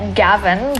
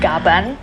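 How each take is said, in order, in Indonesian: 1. Konsonan tengahnya bunyi v. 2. Konsonan tengahnya bunyi b. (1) "namanya Gavan" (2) "bukan Gaban ... melafalkan V jadi B"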